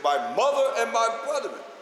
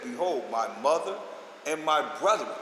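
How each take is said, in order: First: It is shouted in a loud, strong voice. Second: It is read in a normal speaking voice.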